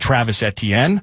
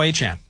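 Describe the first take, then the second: First: The surname sounds like 'eh-tee-en'. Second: The surname sounds like 'ay-chan'. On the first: This is the older way the name was said. The speaker calls it wrong. "Or I believe maybe now it's Achan" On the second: This is the newer way the name is said. The speaker calls it right. "It's now Achan"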